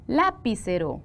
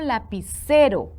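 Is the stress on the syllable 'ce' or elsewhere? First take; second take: elsewhere; ce. First: The stress falls on a syllable other than 'ce'. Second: The stress falls on the syllable 'ce'. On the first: The speaker calls it wrong. "No, ¿verdad? Suena mal" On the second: The speaker calls it right. "C es la sílaba tónica"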